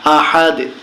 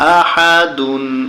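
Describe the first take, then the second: First: The word ends on a bare, bouncing 'd'. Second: The word ends with the syllable 'dun'. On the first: The reader stops at the end of the verse. "এখানে যখন আমরা থেমে যাব তখন উচ্চারণ হবে আহাদে" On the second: The reading continues without stopping. "দাল দুই পেশ দুন"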